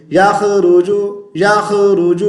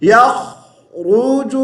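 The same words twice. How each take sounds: First: یخرج as "yakhe-ruju", bouncing a light kh; wrong thin letters. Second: یخرج drawn out, full kh held without a bounce; correct heavy letters. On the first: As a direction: say یخرج quickly with thin kh and r, unchanted. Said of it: "را کو باریک پڑھ دیا". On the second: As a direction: chant "yakh-ruju" for یخرج slowly with a heavy r. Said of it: "تو صحیح کیسے پڑھنا ہے". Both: Shown as a demonstration.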